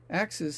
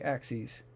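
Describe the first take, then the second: First: It is pronounced like the everyday plural of axe. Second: It is pronounced like the mathematical plural of axis. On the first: The word is read as more than one chopping tool. The speaker calls it right. "such a pedestrian way of saying the plural of the word axe" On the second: The word is read as the mathematical term. The speaker calls it wrong. "I still want to say axes because I just have mathematics on my brain"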